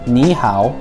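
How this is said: It is pronounced with Mandarin sounds and tones. "in Mandarin, hello is ni hao"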